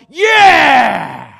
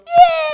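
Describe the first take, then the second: First: Loud shouted yeah; men of the church roaring yeah; guys' cheer. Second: Very high, loud squealed yeah; mock girly high-pitched yeah; girls' squeal. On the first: Retold or imitated. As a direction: roar it like the whole church cheering. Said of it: "we all go". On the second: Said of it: "And girls go".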